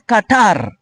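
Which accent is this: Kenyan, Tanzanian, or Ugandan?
Kenyan. The final r is clearly pronounced. "In Kenya, they pronounce it as Qatar. R is loud"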